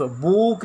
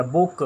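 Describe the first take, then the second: First: बूक with a long, drawn-out oo; long vowel. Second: बुक with a short, quick oo; short vowel. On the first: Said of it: "बूक नहीं होगा". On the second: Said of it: "sound इसका short हो गया". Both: Shown as a demonstration.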